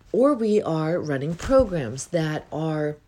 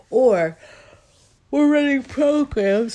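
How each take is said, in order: First: Said in the usual way. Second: Words stretched high through a big yawn. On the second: Real, not acted. Coach talking to viewers while yawning mid-sentence. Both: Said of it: "Sorry about the yawning".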